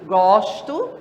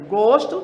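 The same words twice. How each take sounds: First: It is pronounced as the verb form. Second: It is pronounced as the noun form. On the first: It means I like. "que é um verbo" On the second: It means a taste or liking. "que é um substantivo"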